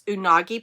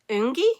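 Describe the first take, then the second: First: The name is said with three syllables. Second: The name is said with two syllables. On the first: The speaker calls it wrong. "I have been calling this Unagi Pearl. It's not" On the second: The speaker calls it right. "I think that's Ungi"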